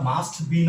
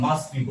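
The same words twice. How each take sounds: First: The t at the end of must is pronounced. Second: The t at the end of must is dropped. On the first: The speaker calls it wrong. "মাস্ট be না বলে" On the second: The speaker calls it right. "আমরা মাস্ট be বলবো"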